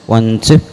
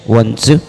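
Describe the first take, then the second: No difference in how they are said.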